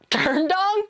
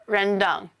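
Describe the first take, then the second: First: The first syllable sounds like 'turn'. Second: The first syllable sounds like 'ren'. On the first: The speaker calls it wrong. "What do you mean ren is pronounced like turn?" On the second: The speaker calls it right. "That's definitely the correct way"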